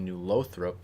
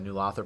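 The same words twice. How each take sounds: First: The first syllable is said like 'low'. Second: The first syllable is not said like 'low'. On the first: The speaker calls it right. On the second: The speaker calls it wrong.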